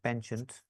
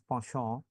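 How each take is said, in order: First: It is said with an American pronunciation. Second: It is said with a French pronunciation. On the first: "as American would probably pronounce it" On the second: "It's a French word pronounced as penchant"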